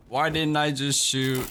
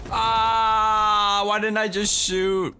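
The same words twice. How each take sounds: First: Said in the usual way. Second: High pained shout; frustrated yell. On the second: Real, not acted. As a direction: wail at your own mistake. Gamer missing a shot.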